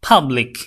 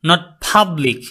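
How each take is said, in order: First: The first sound is a two-lip burst p. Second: The first sound is not a clean two-lip p. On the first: The speaker calls it right. "It will be public" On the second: The speaker calls it wrong.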